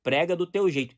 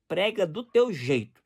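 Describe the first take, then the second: First: Prega do teu jeito said louder with drive; mild fervent preacher voice; forceful preaching. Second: Slow, calm prega do teu jeito; mild calm preacher voice; gentle preaching. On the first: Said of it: "tom de voz mais alto". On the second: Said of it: "pregação mansa e tranquila". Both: Shown as a demonstration.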